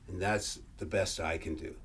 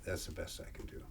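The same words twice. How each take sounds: First: Said in the usual way. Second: Whispered aside. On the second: Real, not acted. To himself after the recitation, a whispered aside. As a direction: whisper it under your breath. Repeats closing line to himself.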